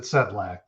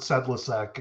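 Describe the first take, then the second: First: The name is said with two syllables. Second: The name is said with three syllables. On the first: The speaker calls it right. "for some reason we pronounce it Sedlak" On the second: The speaker calls it wrong. "I've I've I've heard Sedlisek"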